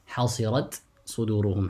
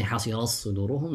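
First: حصرت with a distinct final ت before صدورهم; izhar. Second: حصرت with its final ت merged into the ص of صدورهم; wrong assimilation. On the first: Teacher shows students the correct way, izhar. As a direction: sound the ت of حصرت, then a separate ص. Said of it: "rather recite with الإظهار". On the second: Teacher shows students what not to say, assimilated. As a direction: run حصرت into صدورهم as one doubled ص, no t. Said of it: "You don't say". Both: Shown as a demonstration.

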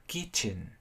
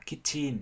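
First: KITCHEN stressed on KIT with weak "chən"; English-style pronunciation. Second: KITCHEN as two equal full syllables, "kit-chin"; Vietnamese-style pronunciation. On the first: Teacher contrasting with Vietnamese reading, KITCHEN in English-style stress. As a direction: hit KIT, let the end of KITCHEN shrink, English style. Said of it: "nói theo kiểu tiếng Anh". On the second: Teacher contrasting with English, KITCHEN in Vietnamese-style even syllables. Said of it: "nói theo kiểu Việt Nam". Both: Shown as a demonstration.

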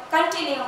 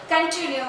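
Both takes have the same delivery.

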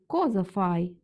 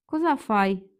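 First: Said in the usual way. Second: Коза фай with коза stressed on its final А; dialect final stress. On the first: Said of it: "замість коза фай". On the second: Shown as a demonstration. Teacher demonstrating dialect sound, коза stressed on final А. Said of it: "Може звучати як".

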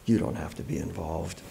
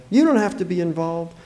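First: Low, hushed repeat of her words; quiet echo. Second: Raised pitch, easy offer; reassuring. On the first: Narrator echoing the neighbour's offer, low and quiet. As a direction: drop the pitch and say it softly. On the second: Neighbour freeing the father of duty, reassuring. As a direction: let him off the hook. Neighbour's first saying, later echoed. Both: Acted.

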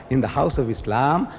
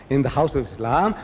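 The two takes are said the same way.

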